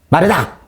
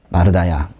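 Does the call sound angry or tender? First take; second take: angry; tender. First: The name is called sharply, in a scolding tone. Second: The name is called gently, in a pitying tone. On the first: The caller wants to scold the listener. The speaker calls it wrong. "혼내시려고 부른 걸까요? ... 이랬습니까? 그런 거 아니죠" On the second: The caller feels sorry for the listener. The speaker calls it right. "너무 안타까우셔서 부르신 거예요"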